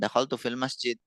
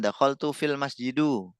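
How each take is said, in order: First: The last word ends with no final vowel. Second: The last word ends with an u vowel. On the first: "disukun-sukun aja" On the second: "Oh salah"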